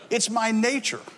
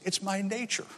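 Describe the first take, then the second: First: Higher-pitched repeat at full volume; lightly acted scorpion, spoken out clearly; scorpion's line restated. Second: Soft, faint confession; hushed dying-scorpion voice. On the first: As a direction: drive the punchline home, pitch raised. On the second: Acted. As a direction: say it weakly with little volume left. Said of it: "scorpion is also about to die".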